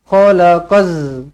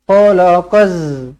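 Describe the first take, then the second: The two takes are said the same way.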